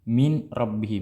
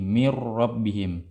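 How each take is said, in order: First: The n sound is pronounced before the r. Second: The n sound merges fully into the r. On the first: "tulisannya min rabbihim" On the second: "dibaca seperti itu"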